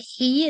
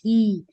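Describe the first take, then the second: First: The h is a deep, tight throat sound. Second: The h is a plain, light breath sound. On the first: The speaker calls it right. "him need to be he" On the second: The speaker calls it wrong. "not he. He will be like the English H"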